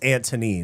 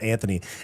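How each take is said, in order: First: The middle consonant is a hard T sound. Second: The middle consonant is a TH sound. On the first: The speaker calls it right. "It's an actual T" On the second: The speaker calls it wrong. "not Anthony"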